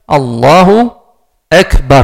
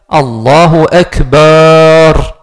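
First: The vowel after the b is short. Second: The vowel after the b is drawn out long. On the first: The speaker calls it right. "la manière de dire" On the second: The speaker calls it wrong. "Il ne faut pas dire, ... On a changé le sens. ... on met un alif, un mad, une prolongation dans le ba"

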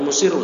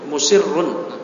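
First: The word ends without a final n sound. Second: The word ends with a final n sound. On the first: The speaker calls it wrong. "jangan musirru" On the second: The speaker calls it right. "tapi musirrun"

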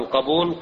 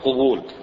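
First: The word starts with a 'qa' sound. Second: The word starts with a 'qu' sound. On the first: It means acceptance, the opposite of refusal. The speaker calls it right. "أما القبول اللي هو ضد الرفض فهو بفتح القاف" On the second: It is the plural form used for admissions. The speaker calls it wrong. "يسمون القبول قبول"

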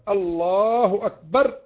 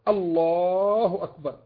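No difference in how they are said.

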